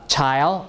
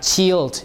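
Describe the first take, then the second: First: The vowel is an 'eye' diphthong. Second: The vowel is a long 'ee' sound. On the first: This is the modern pronunciation. "nowadays, we pronounce it as ... child, I" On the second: This is the older Middle English pronunciation. "E is E still. So you have chilled instead of child"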